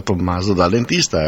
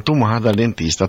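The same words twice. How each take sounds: First: Said in the usual way. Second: Tomà said the Piedmontese way, stress on the final à; Tomà in dialect, stressed at the end; Tomà as the comic's nickname; dialect name Tomà. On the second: Shown as a demonstration.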